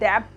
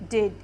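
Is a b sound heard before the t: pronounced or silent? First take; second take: pronounced; silent. First: A b sound is heard before the t. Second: The b is silent before the t. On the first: The speaker calls it wrong. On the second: The speaker calls it right.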